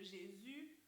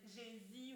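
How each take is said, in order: First: The last vowel is a rounded French 'u'. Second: The last vowel is said like 'ee'. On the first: The speaker calls it right. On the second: The speaker calls it wrong.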